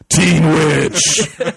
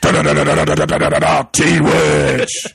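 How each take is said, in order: First: It is said in a spooky horror-film voice. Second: It is said in a growling heavy-metal voice. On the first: "You're saying it as if it's a horror movie" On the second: "Now you're saying it as if it's a Metallica song"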